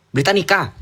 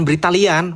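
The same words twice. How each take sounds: First: Said in the usual way. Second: "Britalian", ending in -lian instead of -nica; the mistaken reading "Britalian"; wrong name Britalian. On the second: Shown as a demonstration. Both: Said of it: "bukan Britalian".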